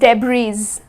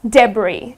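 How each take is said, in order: First: A final S sound is heard. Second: No final S sound is heard. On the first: The speaker calls it wrong. "it's not pronounced as debris" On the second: The speaker calls it right. "It is debris"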